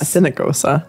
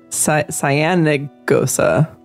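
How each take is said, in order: First: The first syllable sounds like 'sin'. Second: The first syllable sounds like 'sigh-an'. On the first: The speaker calls it wrong. "Not Sinagosa" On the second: The speaker calls it right. "I think it's like Cyanagosa"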